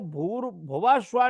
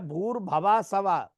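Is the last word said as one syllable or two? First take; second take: one; two. First: The last word is one syllable, 'sva'. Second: The last word is two syllables, 'sava'. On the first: The speaker calls it right. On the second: The speaker calls it wrong.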